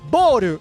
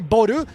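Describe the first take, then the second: First: The vowel is long and drawn out. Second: The vowel is short, not drawn out. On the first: The speaker calls it right. "you say boru" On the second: The speaker calls it wrong. "you don't say boru"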